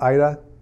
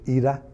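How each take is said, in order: First: The name is said with English pronunciation. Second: The name is said with Polish pronunciation.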